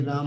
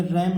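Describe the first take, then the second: First: राम with an open long "aa"; name राम rhyming with "calm". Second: रैम said with "ae", like English "ram"; wrong AI vowel. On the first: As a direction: say राम as "raam", open vowel. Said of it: "ए का उच्चारण आ पढ़ेंगे". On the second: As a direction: say रैम with an open front vowel. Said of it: "रैम नहीं पढ़ना है". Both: Shown as a demonstration.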